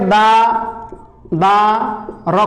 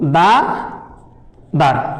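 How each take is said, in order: First: The final r is split off as its own part. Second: The final r is joined to the second syllable. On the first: The speaker calls it wrong. "এবার এটাকে দা দা র করলে হবে না" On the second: The speaker calls it right.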